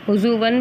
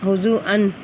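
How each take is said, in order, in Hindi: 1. w की आवाज़ आख़िरी स्वर से पहले आती है। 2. ग्लॉटल स्टॉप आख़िरी स्वर से पहले आता है। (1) "हुज़ुवन भी पढ़ा जाता है" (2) "और हुज़ु हुज़ुअन"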